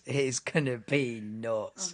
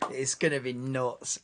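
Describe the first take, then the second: First: Drawn-out stress on "nuts"; slow emphatic repeat. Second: Said in the usual way. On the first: Real, not acted. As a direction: stretch out "be nuts" slowly. Repeats hype line slowly for emphasis.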